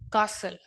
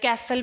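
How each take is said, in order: First: The first vowel is long 'ah', no t. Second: The first vowel is like 'cat'. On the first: The speaker calls it right. "British accent" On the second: The speaker calls it wrong. "या कैसल भी बोलते हैं"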